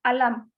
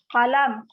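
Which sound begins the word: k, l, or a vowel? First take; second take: vowel; k. First: The word begins with a vowel sound. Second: The word begins with a k sound. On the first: "itu ada yang menyebutnya alam" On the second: "ada lagi kolam"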